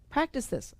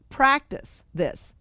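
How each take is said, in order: First: Said in the usual way. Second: Drawn out slowly, each word weighted; slow deliberate command; slow emphatic reading. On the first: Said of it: "the proof is in the practice". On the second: Shown as a demonstration. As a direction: read it slowly like a solemn instruction. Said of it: "And it says".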